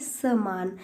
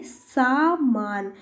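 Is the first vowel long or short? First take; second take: short; long. First: The first vowel is short. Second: The first vowel is long. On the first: The speaker calls it wrong. "दीर्घ को हमने क्या बना दिया, ह्रस्व बना दिया" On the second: The speaker calls it right. "यहाँ पे दीर्घ स्वर होगा सा"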